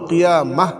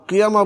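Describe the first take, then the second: First: The word ends with an audible h. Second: The word ends on an open vowel. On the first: The speaker calls it right. "কিয়ামা না বলে কিয়ামাহ বলতে হবে" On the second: The speaker calls it wrong. "কিয়ামা বললে হবে না"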